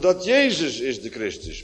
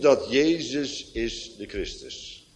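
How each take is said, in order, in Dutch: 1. De klemtoon ligt op Jezus. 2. De klemtoon ligt niet op Jezus.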